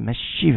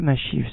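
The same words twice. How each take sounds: First: The 'sh' sound is held long and doubled. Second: The 'sh' sound is short and single. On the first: The speaker calls it right. "c'est Mashiv avec un dagage dans le shin" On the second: The speaker calls it wrong. "c'est pas Mashiv seulement"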